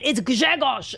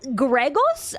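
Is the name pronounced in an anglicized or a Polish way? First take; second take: Polish; Anglicized. First: The name keeps its native Polish consonant sounds. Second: The name is simplified into English-like sounds. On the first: The person knows how to say the name. The speaker calls it right. "oh, you idiot, it's Grzegorz" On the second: The person does not know how to say the name. The speaker calls it wrong. "make fun of every single bad pronunciation"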